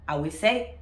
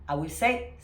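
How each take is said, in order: No difference in how they are said.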